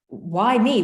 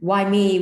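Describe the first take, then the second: First: It sounds curious and full of wonder. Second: It sounds self-pitying and complaining.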